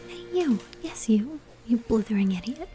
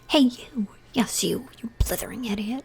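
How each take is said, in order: First: It is read in a flat, mild tone. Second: It is read in an angry, scolding tone.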